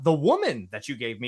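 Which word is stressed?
woman. The stress is on the word woman.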